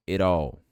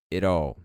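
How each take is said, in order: Both takes have the same delivery.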